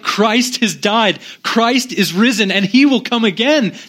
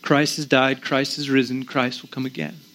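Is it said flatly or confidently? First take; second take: confidently; flatly. First: It is said loudly, with strong confidence. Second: It is said flatly, without conviction.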